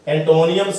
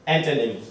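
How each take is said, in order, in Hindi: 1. यह शब्द एक अतिरिक्त 'nee-um' ध्वनि से खत्म होता है। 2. यह शब्द एक छोटी 'nim' ध्वनि से खत्म होता है। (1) "कई बच्चे जो सिनोनियम भी बोल देते" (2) "सही उच्चारण"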